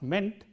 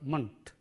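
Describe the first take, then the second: First: The syllable sounds like 'meant'. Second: The syllable has a weak, short vowel. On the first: The speaker calls it wrong. "not meant" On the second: The speaker calls it right. "but ment"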